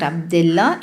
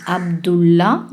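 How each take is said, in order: First: "Abdullah" said as ab-di-la, with a short i in the middle; wrong pronunciation. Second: "Abdullah" said as ab-du-la, with a clear u in the middle; correct pronunciation. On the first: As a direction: mispronounce "Abdullah" with an i sound in the middle. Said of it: "Not Abdullah". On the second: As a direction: say "Abdullah" properly, with a u sound in the middle. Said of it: "Not Abdullah, it is". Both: Shown as a demonstration.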